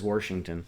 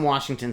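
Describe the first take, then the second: First: Washington said as "Worshington", with an added r; mocked regional pronunciation. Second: Said in the usual way. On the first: Shown as a demonstration. Denying that locals talk so, mimicked regional pronunciation. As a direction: put an r in the first syllable of Washington. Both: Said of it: "No one from Washington says Washington".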